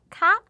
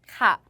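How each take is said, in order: First: The pitch rises at the end. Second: The pitch does not rise at the end. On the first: It is a polite particle used when asking a question. "끝을 올리죠" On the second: It is a polite particle used when answering. "카는 대답할 때 말을 해주시면 되고요"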